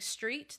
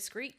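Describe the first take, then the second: First: The word begins with a plain 'str' sound. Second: The word begins with an 'skr' sound. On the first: The speaker calls it right. "they struggle saying street?" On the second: The speaker calls it wrong. "They'll say screet"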